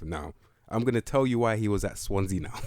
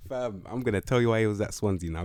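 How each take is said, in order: First: Laughing. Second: Said in the usual way. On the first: Real, not acted.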